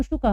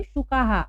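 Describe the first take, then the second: First: "शुकः" with short a, echoed as "shuka-ha"; singular visarga ending. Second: "शुकाः" with long aa, as "shukaa-haa"; plural "haa" ending. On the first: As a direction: keep the "ka" of "शुकः" short before the breath. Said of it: "एक हो तो". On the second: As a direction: lengthen the end of "शुकाः" into an echoed "haa". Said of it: "इसलिए हम हा पढ़ेंगे". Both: Shown as a demonstration.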